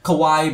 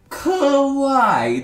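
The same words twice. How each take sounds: First: The word is said short, not stretched out. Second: The word is stretched out and drawn long. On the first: The speaker calls it wrong. "Bukan KWIAY" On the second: The speaker calls it right. "ditarik panjang"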